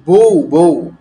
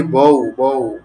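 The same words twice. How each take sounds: First: "বউ" as bo-u with rounded o; vowel as o. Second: "বউ" with open aw before u; as spelt. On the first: Teacher answers for students, firm "বউ" with rounded o. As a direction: say "বউ" louder, with a closed o before u. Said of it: "উচ্চারণ ও এর মতো হবে". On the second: Teacher poses the word to students, slow "বউ" as written. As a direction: say "বউ" letter by letter, open vowel, slowly. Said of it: "বউ এর উচ্চারণ কি হবে". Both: Shown as a demonstration.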